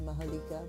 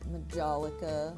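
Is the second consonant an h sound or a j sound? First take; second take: h sound; j sound. First: The second consonant sounds like an h. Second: The second consonant sounds like a j. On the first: This is the proper pronunciation. "I think it's supposed to be" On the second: This version is more fun to say. "it's a lot more fun to say"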